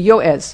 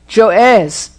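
First: The word begins with a Y sound. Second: The word begins with a J sound. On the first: The speaker calls it right. "it would be Yoez" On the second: The speaker calls it wrong. "Not Joez"

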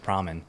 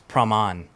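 First: The name is pronounced the English way. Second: The name is pronounced the Thai way. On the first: This is how it is said in English. "But then in English, you would say" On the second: This is how it is said in Thailand. "I grew up in Thailand. So like, it's a different pronunciation"

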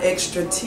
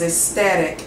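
First: The word is said with an R sound. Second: The word is said without any R sound. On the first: The speaker calls it wrong. "I thought I saw an R in there, and that was wrong" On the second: The speaker calls it right. "The right pronunciation is ecstatic"

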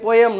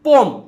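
First: The word is said with two syllables. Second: The word is said as one syllable. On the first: The speaker calls it wrong. "પોયમ કે પોયમ ન હોય" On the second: The speaker calls it right. "પોમ વચાય"

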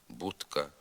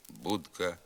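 No difference in how they are said.

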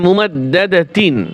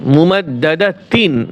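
Both takes have the same delivery.

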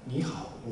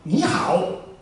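First: It is said in a soft, quiet voice. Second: It is said in a loud, strong voice. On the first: It sounds like a Japanese speaker. The speaker calls it wrong. "日本語のこの声で" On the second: It sounds like a Chinese speaker. The speaker calls it right. "これくらいの声でこうやって言った方が中国人らしいでしょ"

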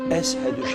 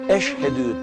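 First: The middle consonant is a plain 's' sound. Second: The middle consonant is a 'sh' sound. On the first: The speaker cannot pronounce the 'sh' sound. The speaker calls it wrong. "eshedü şeklinde telaffuz ediyor" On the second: This is the correct way to say it. The speaker calls it right. "eşhedü tam söyleyemiyor"

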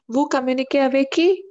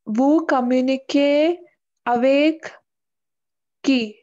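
First: The voice rises at the end. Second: The voice stays flat at the end. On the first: The speaker calls it right. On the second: The speaker calls it wrong.

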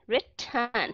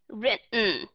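First: A short schwa vowel comes before the final n. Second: The final n stands alone with no vowel. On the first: "Người Anh Quốc đó họ đọc là written" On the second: "người Mỹ họ sẽ đọc là written"

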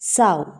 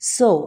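First: The vowel rhymes with the word cow. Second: The vowel rhymes with the word go. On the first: It means a female pig. "ഇത് noun ആണെങ്കിൽ സൗ എന്നാണ് ഉച്ചരിക്കുന്നത്" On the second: It means to plant seeds. "ഇനി വെർബെങ്കിൽ സോ എന്നാണ് പറയുക"

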